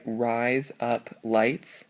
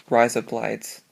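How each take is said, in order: First: Each word spaced out, slow; slow and separate. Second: Quick Australian. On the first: Teaching the memory trick, words said slowly apart. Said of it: "if you say". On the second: Showing the mnemonic, said quick in Australian. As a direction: run it together fast like an Australian accent. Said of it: "you say that quick". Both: Shown as a demonstration.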